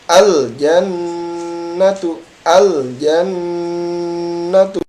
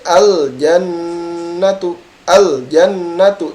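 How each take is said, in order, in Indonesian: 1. Bunyi sengau ganda ditekan dan ditahan, lalu dilepas. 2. Bunyi sengau ganda dilewati tanpa ditahan. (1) "Jadi neken dulu baru dilepas ya" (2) "Jadi tidak baca al jannatu al jannatu, tidak"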